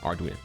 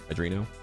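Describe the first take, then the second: First: The word begins with 'ar', with an R. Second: The word begins with 'ad', like 'adrenaline'. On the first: The speaker calls it right. "No, R R Arduino" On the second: The speaker calls it wrong. "I'm saying Adreno like adrenochrome"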